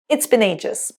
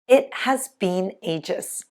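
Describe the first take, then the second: First: Contracted to 'it's' with 'been' as 'bin'. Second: 'It has been' is said fully.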